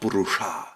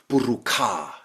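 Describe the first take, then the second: First: The last consonant is a sh sound. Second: The last consonant is a k sound. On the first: "and not burusha" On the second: "ancient Indians are also saying buruka"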